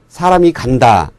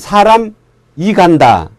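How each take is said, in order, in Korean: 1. 사람과 이는 끊김 없이 이어져요. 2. 사람과 이 사이에 끊어짐이 있어요. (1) "이렇게 말하는 것처럼" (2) "이렇게 말하지 않잖아요"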